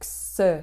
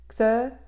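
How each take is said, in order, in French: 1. La fricative reçoit plus de force. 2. L'occlusive est tenue avec plus de force. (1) "au lieu de xe" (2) "xe au lieu de"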